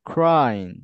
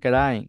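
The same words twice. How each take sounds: First: The opening consonant cluster is said together cleanly. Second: A vowel breaks up the opening consonant cluster. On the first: The speaker calls it right. "Yes, ক্রাইং" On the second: The speaker calls it wrong. "বরিশালের মতো আপনি ক্রাইং বলেন না ... না, এভাবে না"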